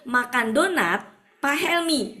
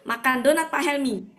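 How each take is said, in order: First: There is a break before the name. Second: It runs on flat with no break. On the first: The named man is the one eating the donut. "Tapi kalau gini" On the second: Someone eats the donut that belongs to the named man. "datar begitu"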